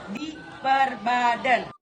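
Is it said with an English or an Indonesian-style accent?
Indonesian. It is said with an Indonesian-style pronunciation. This is how it is said in Indonesia. "Tapi di Indonesia Raya ini penyebutannya selalu menjadi berbeda"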